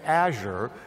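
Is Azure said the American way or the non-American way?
American. It is said with the usual American pronunciation. "Americans say Azure"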